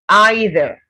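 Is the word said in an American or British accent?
British. It is said in a British accent.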